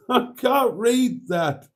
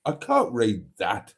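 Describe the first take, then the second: First: High, slow, laughing through it; laughing at the unreadable comment, words slow and high. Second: Said in the usual way. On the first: Real, not acted. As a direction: giggle while squinting at the text.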